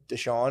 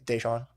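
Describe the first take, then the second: First: Deshaun said as he reads it, stress on shaun; the name as he says it. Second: Deshaun said as teachers correct it, day-SHAWN with a full final n; teacher's correction. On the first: Shown as a demonstration. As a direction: say Deshaun his own way. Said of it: "Say it was, like". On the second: Retold or imitated. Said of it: "and it's like".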